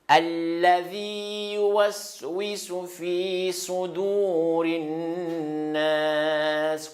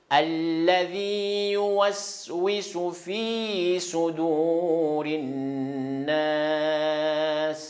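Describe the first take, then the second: Both takes have the same delivery.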